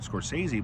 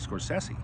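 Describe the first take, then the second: First: The name is said in the common anglicized way. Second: The name is said in its original form. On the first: This is how most people say it. "we call Martin Scorsese uh" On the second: This is how the name really goes. "but his name is actually"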